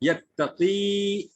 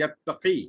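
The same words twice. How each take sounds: First: The final vowel is held long, two beats. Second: The final vowel is short, one beat. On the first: "first is yattaqi with two harkat" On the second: "when it gets chopped it is yattaqi with one harkat"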